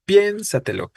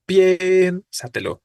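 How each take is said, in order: First: "piénsatelo" with the first syllable raised; stress on pién. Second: "Piénsatelo" slow, high stress on PIÉN; teacher stretches "Piénsatelo" with weight on PIÉN. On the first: Teacher confirming the correct stress of the verb for the class. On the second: Teacher modelling stress on the first syllable for students. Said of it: "porque decimos". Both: Shown as a demonstration.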